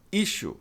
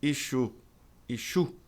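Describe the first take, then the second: First: ISSUE, front-stressed; correct pronunciation of issue. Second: ISSUE, learner's wrong version; common mispronunciation of issue. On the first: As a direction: ISSUE said as "ISH-oo". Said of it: "mas é issue". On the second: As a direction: ISSUE said as "ee-SHOO". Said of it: "A maioria das pessoas pronuncia issue". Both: Shown as a demonstration.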